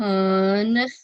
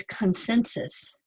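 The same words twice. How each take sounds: First: "consensus" with each syllable stretched and far apart; very slow sounding out of "consensus"; drawn-out syllables. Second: Said in the usual way. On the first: Shown as a demonstration. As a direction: stretch "con", long pause, then the rest of "consensus". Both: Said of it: "Three more vowels".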